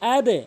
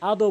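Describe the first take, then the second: First: The word ends in an e vowel. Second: The word ends in an o vowel. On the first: The speaker calls it right. "আদে বলবেন" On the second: The speaker calls it wrong. "আদো বলবেন না"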